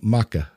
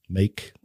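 First: A vowel is pronounced at the end. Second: The word ends with no vowel sound. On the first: "why do we need to pronounce that E at the end of a word" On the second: "Same word"

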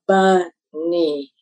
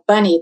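First: Both syllables carry equal stress. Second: The first syllable is stressed more than the second. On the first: The speaker calls it wrong. "have equal stress" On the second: The speaker calls it right. "instead of saying like bunny"

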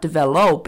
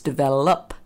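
First: The last syllable has a full O vowel. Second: The last syllable has a reduced schwa vowel. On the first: The speaker calls it wrong. "So it's not develop" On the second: The speaker calls it right. "The O turns into a schwa in the middle of the word"

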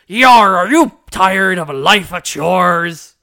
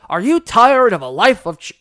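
First: It is said in a put-on pirate voice. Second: It is said in his normal voice.

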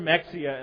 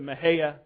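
First: The name ends with an 'ee-ah' sound. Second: The name ends with a 'hay-ah' sound. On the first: This is the spelling-based pronunciation machines understand. The speaker calls it wrong. "it's never Mexia unless you're talking to navigational equipment" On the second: This is the locally preferred, Spanish-like pronunciation. The speaker calls it right. "I prefer the Mahaya pronunciation. It's somewhat sort of close to how you should say it in Spanish"

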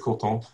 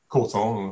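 First: Both syllables get equal stress, French style. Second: The first syllable is stressed, English style.

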